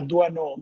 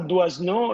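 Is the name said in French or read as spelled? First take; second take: French; as spelled. First: The name is said with French pronunciation. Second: The name is read letter by letter as spelled. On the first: The speaker calls it right. "si chiama Doisneau" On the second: The speaker calls it wrong. "Non si chiama Doisneau"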